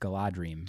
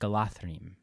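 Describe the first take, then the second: First: The middle consonant is a d sound. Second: The middle consonant is a th sound. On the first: The speaker calls it wrong. "I would always pronounce it in my head as a kid" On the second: The speaker calls it right. "now that we know the D H is the T H"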